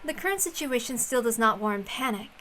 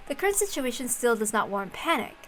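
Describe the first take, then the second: No difference in how they are said.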